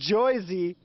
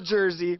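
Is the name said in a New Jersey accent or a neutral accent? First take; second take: New Jersey; neutral. First: The name is said in a New Jersey accent. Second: The name is said in a neutral accent.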